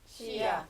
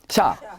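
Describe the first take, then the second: First: Two separate syllables, shi then ya. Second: The sounds merge into one syllable, sha. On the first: The ya is written full size. "크게 쓸 때는 시야" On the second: The ya is written small. "좁게 쓸 때는 붙여"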